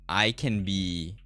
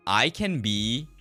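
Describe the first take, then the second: No difference in how they are said.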